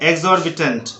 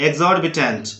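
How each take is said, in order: The two takes are said the same way.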